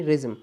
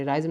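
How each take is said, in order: First: रिज्म with a short i; corrected suffix. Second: राइज्म with a long "rise" vowel; mispronounced suffix. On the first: Teacher correcting himself for students, रिज्म with a short "ri". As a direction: say रिज्म as "riz-um". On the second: Teacher taking back his own slip, राइज्म with an "eye" vowel. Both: Shown as a demonstration. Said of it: "sorry, राइज्म नहीं".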